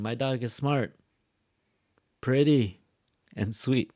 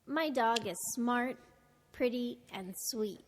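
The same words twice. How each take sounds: First: Full stop after "smart" and long gaps, "pretty" loud and falling; wrong slow list. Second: Shorter pauses, "smart" and "pretty" left open, "sweet" closing; connected list intonation. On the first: Teacher shows what she's not saying, too-slow list. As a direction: chop the list into separate finished items. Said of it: "No, it's too slow". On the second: Narrator does it again for learners, flowing list. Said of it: "make that shorter". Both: Shown as a demonstration.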